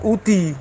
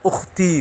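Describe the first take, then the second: First: The k sound in the middle is dropped. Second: The k sound in the middle is kept. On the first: Other speakers say the name this way. "kalau orang lain mengatakannya Uti" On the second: This is the name's own form. "padahal Ukti"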